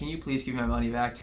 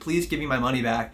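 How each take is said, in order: First: It is said in a kind, polite tone. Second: It is said in a harsh, demanding tone.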